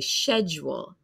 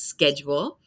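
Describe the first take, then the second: First: The word begins with an 'sh' sound. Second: The word begins with an 'sk' sound. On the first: "they say sh" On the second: "I say sk"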